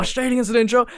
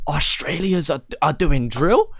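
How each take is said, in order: First: Much higher, incredulous rising question; mock stunned meme reaction, pitch shooting up; shocked disbelief. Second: Quoting a meme page, higher and louder with disbelief; surprised question. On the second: Retold or imitated. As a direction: ask it like you can't believe it. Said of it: "posting, like".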